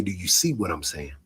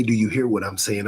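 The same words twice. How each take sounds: First: "see" leaned on, said lower and softer; the question built around "see", low and quiet; stress on see. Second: "hear" leaned on as the key word; the question built around "hear"; stress on hear. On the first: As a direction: push the word "see" in "Do you see". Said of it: "I say". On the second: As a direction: push the word "hear" in "Do you hear". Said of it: "I don't say". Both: Shown as a demonstration.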